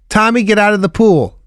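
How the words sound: It is said in a flat, unchanging tone.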